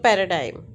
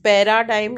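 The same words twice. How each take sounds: First: "paradigm" with a short weak middle vowel, "pai-ruh-daim"; reduced schwa. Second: "Paradigm" with a full long "aa" in the middle, "pai-raa-daim"; unreduced schwa. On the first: Teacher giving the correct form, weak schwa in "paradigm". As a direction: pass lightly over the middle vowel of "paradigm". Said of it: "this schwa sound is not pronounced". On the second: Teacher showing the wrong form, full "aa" in "Paradigm". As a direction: sound out the middle vowel of "Paradigm" fully as "aa". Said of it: "नहीं है वो". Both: Shown as a demonstration.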